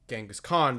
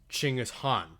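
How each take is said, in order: First: The name is said with its anglicized pronunciation. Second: The name is said with a Mongolian-like pronunciation. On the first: The speaker calls it wrong. "the anglicized pronunciation of the name" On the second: The speaker calls it right. "much closer to being correct in what would have been Old Mongolian"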